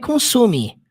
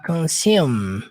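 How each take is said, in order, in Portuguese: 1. A palavra consume termina com um som de vogal extra. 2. A palavra consume termina com um som de m fechado. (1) "Não é consume, consume. Não" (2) "Vai ficar consume, consume. A primeira palavra ela não termina com som do E"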